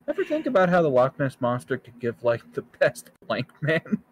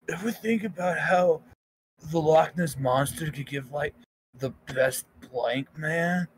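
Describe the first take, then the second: First: It is read in an ordinary speaking voice. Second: It is read in a put-on stoner voice. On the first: The speaker calls it wrong. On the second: The speaker calls it right.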